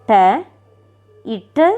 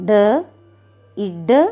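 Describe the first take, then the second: The two takes are said the same way.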